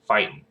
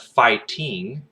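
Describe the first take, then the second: First: "fighting" as "fightin'"; dropped G. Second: "fighting" with a full, slow -ing; G pronounced. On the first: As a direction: say "fighting" with the ending cut to -in. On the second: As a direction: say "fighting" slowly, keeping the ending -ing. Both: Shown as a demonstration. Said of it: "we don't pronounce G".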